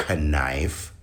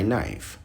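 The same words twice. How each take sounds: First: "knife" said slowly as kuh-NIFE; mock mispronounced "knife", with an extra kuh; K pronounced in knife. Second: "knife" said as NIFE, no K; silent K in knife. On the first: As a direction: sound the silent K in "knife". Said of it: "You don't say". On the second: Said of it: "You say". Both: Shown as a demonstration.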